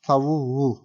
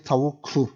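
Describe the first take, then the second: First: The middle consonant is a soft g sound. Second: The middle consonant is a hard doubled k. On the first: The speaker calls it right. "we are changing the like hard consonant to a soft consonant" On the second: The speaker calls it wrong. "that's really difficult"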